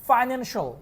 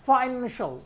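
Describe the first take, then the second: The two takes are said the same way.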